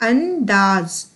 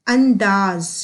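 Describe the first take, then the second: No difference in how they are said.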